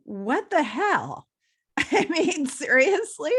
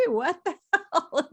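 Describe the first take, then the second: First: Disbelieving. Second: Laughing. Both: Retold or imitated. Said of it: "And I'm like".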